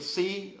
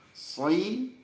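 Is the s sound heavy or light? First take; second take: light; heavy. First: The s sound is light, tongue flat. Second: The s sound is heavy, tongue raised. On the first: The speaker calls it wrong. "nggak boleh" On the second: The speaker calls it right.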